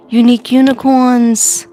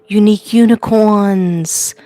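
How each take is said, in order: First: Unique unicorns called out louder and higher; cheery greeting call. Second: Unique unicorns drawn out slowly; slow greeting name. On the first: Greeting her viewers, Unique unicorns called out loudly. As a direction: call out to the fans, bright and loud. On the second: To her viewers, unique unicorns said slowly. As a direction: say unique unicorns slowly, each word laid out. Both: Shown as a demonstration. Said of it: "I forgot to say".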